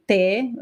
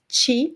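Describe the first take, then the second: First: The syllable starts with a plain 't' sound. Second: The syllable starts with a 'ch' sound. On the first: Only some speakers pronounce it this way. "Some people would say te" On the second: This is the most common pronunciation in Brazil. "they're usually pronounced as chi"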